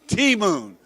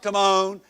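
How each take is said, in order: First: The second syllable has a long 'moon' sound. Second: The second syllable has a short 'mon' sound. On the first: The speaker calls it right. "it's T-Moon" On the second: The speaker calls it wrong. "it's not Timon"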